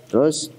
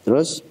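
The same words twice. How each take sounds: The two takes are said the same way.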